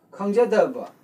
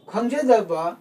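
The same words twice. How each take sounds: First: ꯈꯪꯖꯗꯕ with the pitch dropping at the end; teacher repeating ꯈꯪꯖꯗꯕ with its falling tone. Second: Teacher pronouncing ꯈꯪꯖꯗꯕ to show its tone; tone demo. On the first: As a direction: let ꯈꯪꯖꯗꯕ fall away at the close. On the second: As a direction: present ꯈꯪꯖꯗꯕ carefully for the learner. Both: Shown as a demonstration. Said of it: "falling tone is used here".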